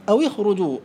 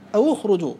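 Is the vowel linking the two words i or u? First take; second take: i; u. First: The linking vowel before the cluster is i. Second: The linking vowel before the cluster is u. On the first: "مخير بين الكسر والضم" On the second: "مخير بين الكسر والضم"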